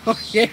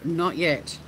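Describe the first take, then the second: First: Laughing it out. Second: Said in the usual way. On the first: Real, not acted. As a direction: chuckle through the words. Repeated answer with laugh.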